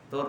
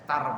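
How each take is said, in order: First: The syllable has the vowel u. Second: The syllable has the vowel a. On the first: "Tur boleh" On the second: "tar boleh"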